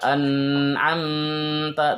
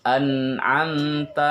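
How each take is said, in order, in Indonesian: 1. Ada bunyi dalam kata itu yang dibaca terlalu panjang. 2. Bunyi-bunyi dalam kata itu dibaca pendek. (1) "jangan terlalu lama, jangan membaca an'amta" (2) "tetapi an'amta"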